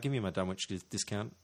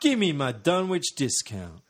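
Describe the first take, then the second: First: It is said casually, like ordering a sandwich. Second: It is said in a menacing gangster voice.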